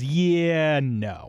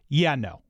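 First: The words are slow and stretched out. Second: The words are short with a final ending. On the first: "One is very drawn out" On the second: "There's that sound of finality"

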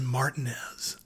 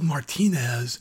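First: Pronounced the local southern way. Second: Pronounced the way it is spelled. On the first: This is how the locals say the town's name. "but they pronounce it Martinez" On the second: This is the usual foreign name. "there's a town that's spelled Martinez"

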